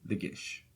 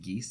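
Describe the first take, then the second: First: The word ends with an 'sh' sound. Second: The word ends with an 's' sound. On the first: "so I'm sticking with that" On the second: "you can also pronounce it geese"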